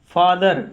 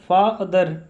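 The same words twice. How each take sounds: First: Said in the usual way. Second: father broken in two, फा then दर; teacher sounding out father syllable by syllable; split into syllables. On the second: Shown as a demonstration. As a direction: say father as two separate beats. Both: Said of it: "उच्चारण में जो ऐसे बोला जाए".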